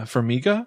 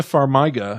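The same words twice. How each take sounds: First: Farmiga said fur-MEE-guh, questioning; Farmiga as a tentative fur-MEE-guh, rising. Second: Farmiga said far-MY-guh; Farmiga, middle syllable rhyming with "eye"; Farmiga with a long I. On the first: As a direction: try Farmiga with "mee" in the middle, unsure. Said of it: "Tessa Farmiga". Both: Shown as a demonstration.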